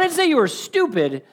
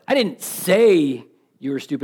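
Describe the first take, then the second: First: The stress is on the word stupid. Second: The stress is on the word say.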